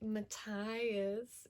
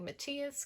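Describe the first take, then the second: First: The name is said with an English pronunciation. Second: The name is said with a German pronunciation. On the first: The speaker calls it right. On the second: The speaker calls it wrong.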